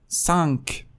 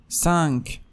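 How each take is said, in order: The two takes are said the same way.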